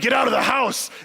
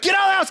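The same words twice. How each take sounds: First: It is said in a deep, manly voice. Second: It is said in a high, shrill screaming voice.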